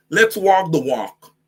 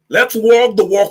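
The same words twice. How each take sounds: First: Slow deliberate. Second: Loud challenge. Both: Shown as a demonstration.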